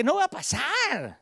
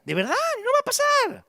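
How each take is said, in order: First: Said in the usual way. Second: "no va a pasar" thrown up high with force; preacher insisting "de verdad, no va a pasar" in a soaring voice; emphatic high cry. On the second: Shown as a demonstration. Preacher to dreamers, high insistent cry.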